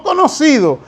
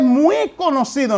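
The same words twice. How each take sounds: First: Said in the usual way. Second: "muy" punched before "conocido"; stress on MUY. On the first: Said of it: "que es muy conocido". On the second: Shown as a demonstration. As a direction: lean hard on "muy" to contrast it. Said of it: "no conocido". (énfasis fuerte en "muy")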